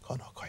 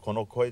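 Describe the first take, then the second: First: It is said in a small, hushed voice. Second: It is said in a normal speaking voice. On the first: The speaker calls it right. "もっとちっちゃな声" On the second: The speaker calls it wrong. "これが普通の声だとすると"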